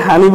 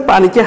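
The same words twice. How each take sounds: First: "হানি" with h replacing the initial p; Noakhali pronunciation. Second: Said in the usual way. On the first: Shown as a demonstration. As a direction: soften the p to h in "হানি", Noakhali style. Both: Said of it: "পানিকে হানি বলে".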